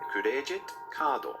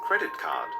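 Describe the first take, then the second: First: It is said with lengthened Japanese-style sounds. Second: It is said with plain English pronunciation.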